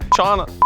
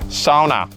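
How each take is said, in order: First: The name begins with a 'sh' sound. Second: The name begins with an 's' sound. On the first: The speaker calls it wrong. "where I said Shauna wrong" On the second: The speaker calls it right. "It's Sauna"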